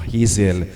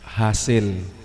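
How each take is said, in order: First: The name is said with an English-style pronunciation. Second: The name is said with a Bisaya pronunciation. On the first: "kapag ikay foreigner, ang tamang pronunciation ay Hazel" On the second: "Dahil ako po ay Bisaya"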